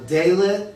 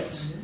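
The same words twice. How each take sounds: First: Dalet said as DAY-let; mispronounced. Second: Dalet repeated softly as DAH-let; corrected pronunciation. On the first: Beginner reads Hebrew letter to teacher, Dalet mispronounced DAY-let. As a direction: say Dalet wrongly, with "day" as first syllable. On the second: Student repeats after the teacher, soft corrected DAH-let. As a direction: softly echo Dalet with an open "ah". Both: Real, not acted. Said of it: "didn't address your pronunciation".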